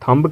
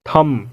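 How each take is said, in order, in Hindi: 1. अंतिम b ध्वनि बोली जाती है। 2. अंतिम b ध्वनि मौन है। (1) "क्या आप इसे थंब कहते हो?" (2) "यहाँ भी बी साइलेंट होगा"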